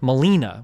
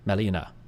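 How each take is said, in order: First: One syllable carries a strong, hard stress. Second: The syllables are said evenly, without hard stress. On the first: This is how English speakers say it. "We have very hard accents in English" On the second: This is how Japanese speakers say it. "Whereas like in Japanese, it'd be like"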